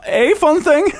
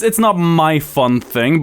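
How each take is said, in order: First: "a" said as a long, high "ay"; stress on A. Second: Drawn-out line with "my" as the contrast word; stress on MY. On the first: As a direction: hit "a" high to set it apart. Contrasting "a" with "my. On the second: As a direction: lean on "my" in "not my fun thing". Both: Real, not acted.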